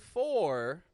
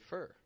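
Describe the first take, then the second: First: The vowel is full and clearly pronounced. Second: The vowel is weak and reduced. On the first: "we don't say for all the time" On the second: "We say for"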